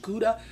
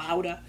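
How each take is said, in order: First: Said in the usual way. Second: Gouda said Dutch-style, like HOW-da; alternative pronunciation. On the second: Shown as a demonstration. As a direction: offer Gouda with a breathy H start and an OW vowel. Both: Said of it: "or Gouda".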